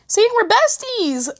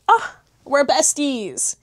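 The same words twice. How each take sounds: First: High, slow sing-song teasing. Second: Said in the usual way. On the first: Acted. Vlogger teasing viewers in a high sing-song. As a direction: stretch it out high and playful.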